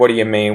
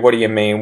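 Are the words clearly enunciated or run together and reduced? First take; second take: reduced; reduced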